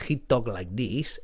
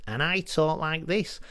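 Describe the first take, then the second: First: Low, sultry Spanish accent. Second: Said in the usual way. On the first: Shown as a demonstration. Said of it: "He has a very sexy accent". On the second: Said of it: "but he talk like this".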